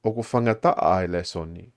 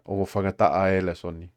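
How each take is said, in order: First: Careful formal Tongan with the full vowel in "whangata'a e"; expected form. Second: Relaxed colloquial "whangata'a e" with the vowel reduced; casual spoken Tongan, sounds run together; everyday spoken form. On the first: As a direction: say "O ko whangata'a e le soni" the written way. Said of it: "So grammatically, we expect". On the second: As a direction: say "O ko whangata'a e le soni" the way people actually speak it. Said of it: "But we always hear". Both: Shown as a demonstration.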